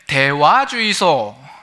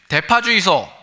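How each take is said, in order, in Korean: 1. 각 음절을 하나씩 따로, 또박또박 발음해요. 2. 음절들이 빠르고 크게 한 번에 이어져서 발음돼요. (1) "또박또박 다시 한번 이야기를 합니다" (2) "목소리가 커가지고"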